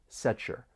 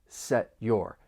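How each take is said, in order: First: The t and y blend into ch. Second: The t stops, then a separate y sound. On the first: "The sounds blend together and you get that slight ch sound" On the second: "Somebody may say that stop T, and then you're going to hear that y in your"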